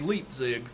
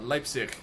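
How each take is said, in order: First: The word ends with a hard g sound. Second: The word ends with a soft ch sound. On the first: The speaker calls it wrong. "I grew up in America, of course, and we would say Leipzig" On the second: The speaker calls it right. "It's a soft like C H at the end"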